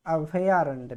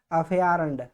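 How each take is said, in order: First: अभयारण्य said slowly and clearly, each syllable distinct; correct form, slowed. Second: अभयारण्य said as a wrong form, the way not to write it; wrong spelling said aloud. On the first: Teacher modelling the right word slowly. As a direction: model अभयारण्य carefully for the class. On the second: Teacher voicing the wrong form to students. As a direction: contrast the wrong अभयारण्य with the right one. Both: Shown as a demonstration. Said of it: "अभया नहीं".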